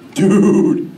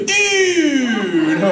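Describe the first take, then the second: First: It is said in a wry, half-amused tone. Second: It is said with bright, excited energy. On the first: Something is bogus but a bit funny. "if you see something that's totally bogus, but it's semi-humorous, then you do this" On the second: Something is awesome. "if something's awesome, you go"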